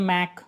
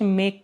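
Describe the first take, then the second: First: "मैक" with an open "ai" vowel instead of "ay"; mispronounced "make". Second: Said in the usual way. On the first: Shown as a demonstration. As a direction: say make wrongly as "मैक", rhyming with back. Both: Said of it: "गलत pronunciation करते हैं".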